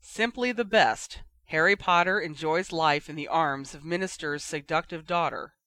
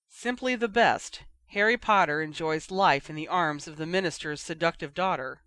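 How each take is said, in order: First: Shaky voice. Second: Reading aloud. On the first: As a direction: read it out, voice unsteady. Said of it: "read aloud in a shaky voice". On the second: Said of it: "read Penelope". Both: A narrator's reading.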